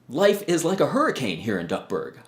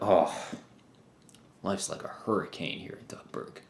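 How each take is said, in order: First: It sounds excited and enthusiastic. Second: It sounds unhappy, like disliking the chaos.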